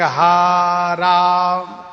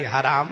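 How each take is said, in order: First: The word is slowly drawn out into two parts. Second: The word is said quickly in one piece. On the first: It sounds like a humble, pitiful call to God. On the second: It is an insult to the one who caused harm.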